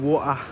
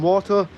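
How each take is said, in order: First: The T in the middle is dropped. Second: The T in the middle is clearly pronounced. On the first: This is how people in London say it. "that's more of a uh, London thing" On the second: This is how people in Bradford say it. "I say it with a T"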